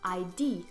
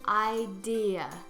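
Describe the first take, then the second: First: The word is said with only two syllables. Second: The word is said with three syllables. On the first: The speaker calls it wrong. "It's not pronounced I D" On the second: The speaker calls it right. "It actually has three syllables"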